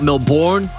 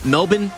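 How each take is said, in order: First: Melbourne is pronounced with a non-Australian accent. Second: Melbourne is pronounced with an Australian accent. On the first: The speaker calls it wrong. "not Melbourne" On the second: The speaker calls it right. "It's I E M Melbourne"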